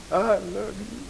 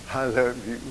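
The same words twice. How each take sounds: First: Higher, rising, tender repeat; heartfelt declaration. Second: Said in the usual way. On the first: Retold or imitated. Son telling his mama he loves her, heartfelt. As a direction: say it higher, reaching out to her with love.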